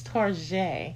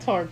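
First: The name is said the fancy, upscale way. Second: The name is said the plain, everyday way. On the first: "It sounds very bourgeois" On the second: "Not Target"

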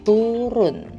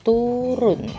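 No difference in how they are said.

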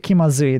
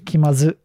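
First: The word ends with a final 'ee' sound. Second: The word ends without the final 'ee' sound. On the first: This is the full standard form. "they don't say kimazu" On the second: This is the casual everyday form. "They say kimazu. ... They drop the E"

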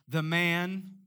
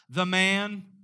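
First: It is said at normal, softer volume. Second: It is said louder, with more force.

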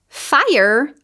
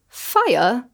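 First: The final R is clearly pronounced. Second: The final R is dropped.

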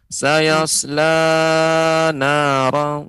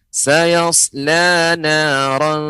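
First: The la vowel is held longer than others. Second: The la vowel matches the other long vowels. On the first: The speaker calls it wrong. "jangan sampai nanti pengucapan sayasla la lebih panjang" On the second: The speaker calls it right. "cukup diayunkan saja, ditekan"

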